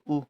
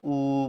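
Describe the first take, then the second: First: The vowel is held only briefly. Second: The vowel is held for a long time. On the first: "छोटा ऊ जब हम बोलते हैं तो ऊ बोल देते हैं" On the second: "बड़ा ऊ बोलते हैं तो ऊ बोलते हैं, देर तक बोलते हैं"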